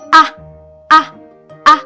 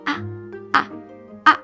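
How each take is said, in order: First: It is said very loudly. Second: It is said very quietly.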